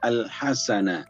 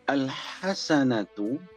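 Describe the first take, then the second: First: The word ends with a soft 'h' sound. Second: The word ends with a 'tu' sound. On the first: The reading stops on this word. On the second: The reading continues without stopping on the word.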